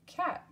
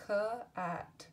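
First: Cat jumps up in pitch; sing-song the word cat up high for kids; high, bright repeat. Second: Said in the usual way. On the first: Shown as a demonstration. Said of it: "second take of word". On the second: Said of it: "word said twice".

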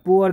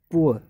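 First: "पुअर" with the R pronounced at the end; sounded final R. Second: "पुअर" said "poo-uh", ending in a schwa; silent final R. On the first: Teacher shows students what not to say, sounded R. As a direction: hit "पुअर" loudly, R and all. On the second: Teacher models the word for students, silent R. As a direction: let "पुअर" fade into uh with no R. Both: Shown as a demonstration. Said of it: "अब पुअर नहीं बोलते".

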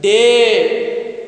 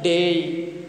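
First: "day" with one long, steady e, no glide; wrong vowel demo. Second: "day" gliding from e into i, lower; correct diphthong. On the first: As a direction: stretch "day" on a pure vowel, louder at the vowel. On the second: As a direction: say "day" as deh-ee, the pitch dropped. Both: Shown as a demonstration. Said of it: "You should not pronounce like that".

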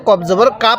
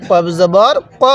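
First: "কা" with an open "aa" instead of rounded "ক"; wrong vowel. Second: "ক" with a rounded, o-like vowel, not "কা"; vocale corretta. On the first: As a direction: end "কফ জবর কা" on an open "kaa". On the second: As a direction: say "কফ জবর ক", ending on a rounded "ko". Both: Shown as a demonstration. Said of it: "কেউ কফ জবর কা পড়বেন না".

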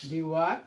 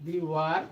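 No difference in how they are said.

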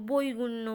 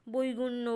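The two takes are said the same way.

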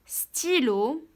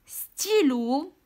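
First: Said in the usual way. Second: ستيلو whispered slowly. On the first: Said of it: "teacher repeats word plainly". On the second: Shown as a demonstration. Teacher whispering ستيلو to the class, slow. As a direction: breathe ستيلو out without voice. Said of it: "teacher models word reading".

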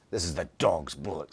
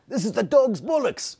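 First: Lower, softer mock British accent. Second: Much higher, louder hammed-up British accent; terrible British accent. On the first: Host retries the line in a lower British accent. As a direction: try it again as a deeper British voice. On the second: Host tries a terrible British accent for co-host. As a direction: overdo a bad British accent, pitched way up. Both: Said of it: "terrible British accent".

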